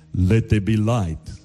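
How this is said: It is said in a deep voice. It sounds like a powerful creator speaking. The speaker calls it right. "There has to be the deep voice"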